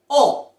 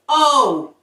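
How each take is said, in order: First: The vowel is short and pure. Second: The vowel is drawn out and glides. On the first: The speaker calls it right. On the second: The speaker calls it wrong.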